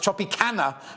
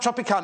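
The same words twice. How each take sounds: First: The ending sounds like the word 'canna'. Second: The ending does not sound like 'canna'. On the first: The speaker calls it right. "because it's the canna lily" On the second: The speaker calls it wrong. "it's not Tropicana"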